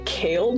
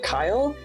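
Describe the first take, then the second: First: The name has the vowel of 'day'. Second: The name has the vowel of 'eye'. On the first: This is a funny mispronunciation sometimes heard. "I've gotten Kale before, which I think is pretty funny" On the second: This is the name's actual pronunciation. "It's actually like Kyle"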